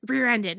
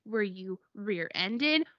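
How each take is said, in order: First: "Rear-ended" with a falling end; confirming. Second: "rear-ended" slow with a rising end; questioning. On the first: Mom confirming the crash, "Rear-ended" falling as a statement. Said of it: "And she's like". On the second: Asking mom about the crash, "rear-ended" rising as a question. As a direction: ask it slowly, lifting at the end of "rear-ended". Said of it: "What I wanna know is". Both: Retold or imitated.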